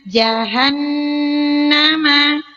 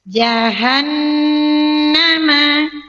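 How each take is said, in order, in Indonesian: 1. Bunyi h diucapkan dengan jelas dan tegas. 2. Bunyi h diucapkan dengan jelas dan tegas.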